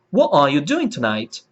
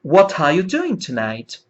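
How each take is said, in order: First: "What are" as "wha-ah", no T; dropped T. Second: "What are" linked with a crisp T, "wha-tah"; true T. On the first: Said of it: "eliminando o T". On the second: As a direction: sound the T of "What" fully into "are". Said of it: "pronunciando o T natural, o T original". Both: Shown as a demonstration.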